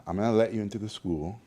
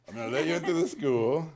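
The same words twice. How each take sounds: First: Said in the usual way. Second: Higher mock Hungarian teacher, louder; Hungarian accent. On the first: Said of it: "quote repeated". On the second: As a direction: imitate the stern Hungarian teacher granting entry. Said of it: "he had a thick accent".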